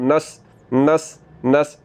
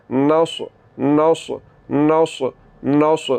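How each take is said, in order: First: नस with thin light सीन; teacher showing the wrong light नस; wrong light seen. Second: नौस with full heavy स्वाद, tongue raised; heavy swad demo. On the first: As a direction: say नस flat, no heaviness. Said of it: "तो अब मैं सीन को पढ़ रहा हूँ". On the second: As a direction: say नौस thick and rounded. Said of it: "तो फिर स्वाद पुर पढ़ा जाएगा". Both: Shown as a demonstration.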